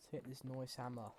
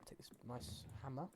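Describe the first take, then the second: First: "nice" said as "noyce"; "nice" rhymed with "voice" for fun; playful "noice". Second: Said in the usual way. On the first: Pretend. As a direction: say "nice" with an oy vowel, jokingly. Playful repeat of the same words.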